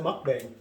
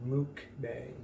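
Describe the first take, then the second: First: Mukbang with a short "uh" in the first syllable, like "muck-bang". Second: Mukbang with an "oo" in the first syllable, like "mook-bang". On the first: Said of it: "we pronounce it mukbang also". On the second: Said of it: "in the definition online, it says". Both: Shown as a demonstration.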